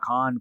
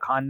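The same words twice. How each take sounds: First: The first sound is a rough, raspy fricative. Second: The first sound is an aspirated stop. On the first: The speaker calls it right. "खारिश वाला खान" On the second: The speaker calls it wrong. "खुजली वाला खान नहीं"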